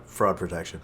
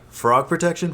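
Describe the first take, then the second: First: "Fraud" said with a long aw, like cheating; corrected word. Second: "Frog" said with a short o, like the animal; mispronounced word. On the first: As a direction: say "Fraud protection" the right way. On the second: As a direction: say "Frog protection" as if the ad said frog. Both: Shown as a demonstration. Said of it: "That's the commercial".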